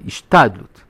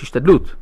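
First: The stress is on the next-to-last syllable. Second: The stress is on the final syllable. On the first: The effort looks upward to heaven to finish the job. The speaker calls it wrong. "זה גם מלעיל" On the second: The effort comes from the ground, aiming to succeed. The speaker calls it right. "זה מלרע, מהאדמה"

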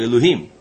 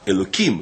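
First: The middle consonant is an h sound. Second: The middle consonant is a k sound. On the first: This is the actual divine name, not said in daily life. "לא אלוהים" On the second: This is a substitute form for everyday speech.

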